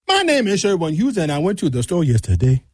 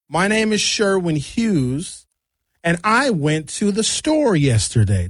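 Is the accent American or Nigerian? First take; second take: Nigerian; American. First: It is said Nigerian-style, starting very high. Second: It is said in a flat American manner.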